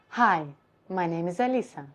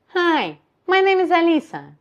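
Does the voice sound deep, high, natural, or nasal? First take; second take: deep; nasal. First: The voice is lowered with a low larynx. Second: The voice is raised and sounds nasal. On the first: "if I would do lower position of my larynx" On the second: "So higher position and nasal"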